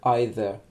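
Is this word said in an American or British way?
British. The word is said with a British pronunciation. "британский вариант"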